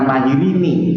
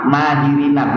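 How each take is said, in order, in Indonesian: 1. Kata itu diakhiri dengan vokal 'i'. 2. Kata itu diakhiri dengan vokal 'a'. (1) "bukan mahirini" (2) "nunnya ini di fathah"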